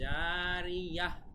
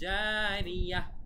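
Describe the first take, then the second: First: The word ends with a soft 'h' sound. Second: The same.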